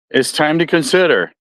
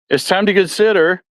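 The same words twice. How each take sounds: The two takes are said the same way.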